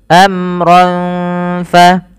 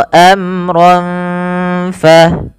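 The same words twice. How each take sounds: The two takes are said the same way.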